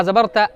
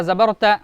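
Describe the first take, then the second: The two takes are said the same way.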